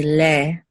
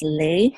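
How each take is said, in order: First: "le" as a pure eh, no glide; unemphasized A. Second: "le" said as lay; long A glide. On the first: Teacher shows how they say it in Israel, "le" without the A glide. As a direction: say "le" with an open eh, not lay. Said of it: "don't really emphasize the A". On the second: Teacher repeats how it's usually taught, "le" rhyming with day. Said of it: "how it's usually taught". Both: Shown as a demonstration.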